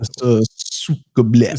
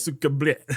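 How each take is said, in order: First: Slow mock Russian accent; thick Russian accent. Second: Put-on Russian accent. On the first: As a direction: drawl it in a hammy Russian accent. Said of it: "Just do a, a thick Russian accent". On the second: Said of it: "a thick Russian accent".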